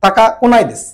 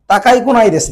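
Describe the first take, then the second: First: তাকা with no ই sound, straight into কোনায় দিস; correct form demo. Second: Wrong form তাকাই with the ই sounded, তাকাই কোনায় দিস; wrong form demo. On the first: Teacher models the right form for students, ই dropped from তাকা. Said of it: "তাকাই বললে তো আপনার ইটা উচ্চারণটা চলে আসলো". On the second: Teacher shows students the mistake to avoid, sounding তাকাই fully. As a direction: say তাকাই with a clear final ই, as the wrong version. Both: Shown as a demonstration.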